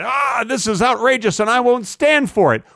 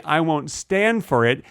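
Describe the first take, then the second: First: Higher-pitched put-on outrage; mock angry yell. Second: Said in the usual way. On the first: Comedian acting out angry travelers in public, mock outraged yell. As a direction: act out a public complaint, mildly overblown. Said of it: "they start yelling and they say".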